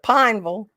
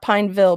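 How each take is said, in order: First: Pineville is said in a local Kentucky way. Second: Pineville is said in a standard, non-local way. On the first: This is how the family said it. The speaker calls it right. "but Pineville" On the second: This is not how the family said it. The speaker calls it wrong. "Not Pineville"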